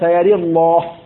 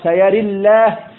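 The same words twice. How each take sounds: First: Inclined vowel after r, with a heavy lam. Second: Inclined vowel after r, with a light lam. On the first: "وبالإمالة والتغليظ هكذا" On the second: "بالإمالة والترقيق"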